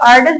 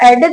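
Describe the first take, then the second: First: The word begins with an 'ar' sound. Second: The word begins with an 'eh' sound. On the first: "कुछ लोग आर्डेड भी पढ़ते हैं" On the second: "इसको कुछ लोग एडेड भी पढ़ते हैं"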